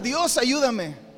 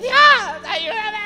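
First: It is said calmly, as a prayer. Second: It is shouted, as a cry of fear.

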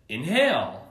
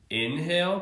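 First: The stress is on the second syllable. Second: The stress is on the first syllable. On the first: "putting the emphasis on the hail" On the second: "putting the emphasis on the in"

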